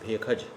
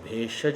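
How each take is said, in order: First: The middle consonant is a kh sound. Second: The middle consonant is a retroflex sh sound. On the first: "उसको ख उच्चारण करते हैं" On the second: "भेषज नहीं बोलेंगे"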